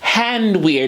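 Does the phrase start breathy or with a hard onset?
breathy. It starts with an audible breathy onset. The speaker calls it right. "with the aspirate onset"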